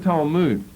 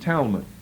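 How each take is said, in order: First: The word has its original, non-English pronunciation. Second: The word has an anglicized English pronunciation.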